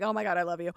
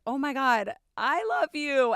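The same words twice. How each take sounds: First: Said in the usual way. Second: Louder, higher burst of joy; excited realization. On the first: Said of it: "was like". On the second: Retold or imitated. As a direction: blurt it out, overwhelmed. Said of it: "and I was like".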